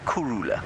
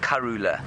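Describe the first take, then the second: First: The first vowel sounds like 'u'. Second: The first vowel sounds like 'a'. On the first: This is the real Shangaan word for peaceful. The speaker calls it right. "but it's actually Kurula" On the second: This is how it is commonly heard and spelled. The speaker calls it wrong. "it sounds a little bit like Karula"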